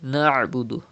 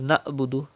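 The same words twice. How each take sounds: First: The middle consonant is squeezed from the throat. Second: The middle consonant is a plain glottal catch. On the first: The speaker calls it right. "pronounce from the middle part of your throat" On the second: The speaker calls it wrong. "Do not read as Na'budu"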